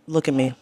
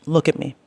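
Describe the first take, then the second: No difference in how they are said.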